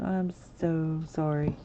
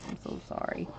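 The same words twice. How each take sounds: First: Said in the usual way. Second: Breathy whispered apology; whispered I'm so sorry. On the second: Real, not acted. Embarrassed aside to the chat.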